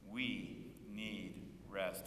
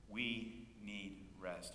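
First: Drawn-out call and response; slow group repeat. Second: Slow, deliberate lead for the congregation; slow lead line. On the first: Congregation echoing the pastor slowly. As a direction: stretch it out with the congregation. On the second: Pastor leading the church in a slow repeated phrase. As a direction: spell it out slowly so they can follow. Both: Shown as a demonstration. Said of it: "Will you say that with me?".

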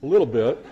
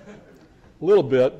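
First: Said in the usual way. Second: Slow, louder, with a chuckle; laughing concession. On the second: Shown as a demonstration. Lecturer admits his proof is thin, laughing slowly. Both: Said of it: "repeats the phrase as a concession".

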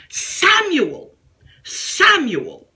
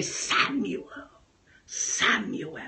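First: Raised, ringing call of the name; God calling out. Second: Much softer, low and hushed; intimate soft call. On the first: Acted. Preacher calls out the name as God, raised and ringing. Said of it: "calling you doubly by your name". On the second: Retold or imitated. Preacher retells God calling his name, soft and hushed. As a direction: say the name tenderly, almost to himself. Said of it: "I heard God say".

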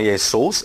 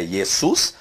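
First: "Jesus" said as "é-sous", the ending with an ou glide; "Jesus" with an ou sound in the last syllable, the form he rejects; wrong pronunciation. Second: "Jesus" said as "ie-sus", with a clear u in the last syllable; "Jesus" as "iesus", the u said pure; corrected pronunciation. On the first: Teacher showing the wrong Greek reading of "Jesus". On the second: Teacher giving the correct Greek reading of "Jesus". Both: Shown as a demonstration. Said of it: "A pronúncia é no encontro do ômicron com Y tem o som de U".

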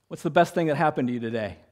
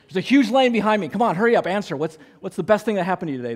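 First: Said in the usual way. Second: High, loud, fast pretend rush; mock impatient hurry. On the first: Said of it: "I looked at her and I said". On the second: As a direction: hurry her up in mock urgency. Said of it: "I'm just playing with her".

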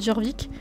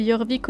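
First: Jorvik said with a hard "Dj" sound, "Djorvik"; J of Jorvik fully voiced as "dj"; J pronunciation of Jorvik. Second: Jorvik said with a Y sound, "Yorvik"; J of Jorvik softened to a Y glide; Y pronunciation of Jorvik. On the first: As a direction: start Jorvik with a J, not a Y. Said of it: "au lieu de Jorvik". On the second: Retold or imitated. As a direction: start Jorvik like "yor", not "jor". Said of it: "parce que je disais Jorvik au lieu de".

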